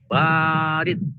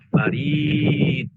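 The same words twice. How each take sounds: First: The first vowel is long. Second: The second vowel is long. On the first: Cold. "pertama ba yang panjang" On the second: Post. "yang kedua i-nya yang panjang"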